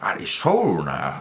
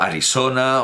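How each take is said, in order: First: The name is pronounced with English sounds. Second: The name is pronounced with Spanish sounds. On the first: "con esa pronunciación absurda que ellos hacen del español" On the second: "con esta pronunciación"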